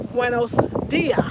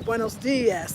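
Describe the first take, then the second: First: The final s sound is dropped. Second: The final s sound is clearly pronounced.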